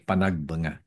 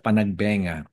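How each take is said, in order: First: The third syllable has an 'a' vowel. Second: The third syllable has an 'e' vowel. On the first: The speaker calls it right. "kundi Panagbanga" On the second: The speaker calls it wrong. "Hindi siya Panagbenga"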